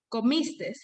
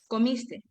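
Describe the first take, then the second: First: The word ends with an added s sound. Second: The word ends without an added s sound. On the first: The speaker calls it wrong. "pronunciar la S al final de los verbos en segunda persona" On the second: The speaker calls it right. "por correctamente comiste"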